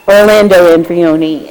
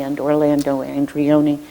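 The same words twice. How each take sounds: First: "Orlando Andrioni" said louder, each part stressed; emphatic full name. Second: Said in the usual way. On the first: Real, not acted. Thanking committee staff, he nails the name loudly. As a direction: land the full name firmly after stumbling.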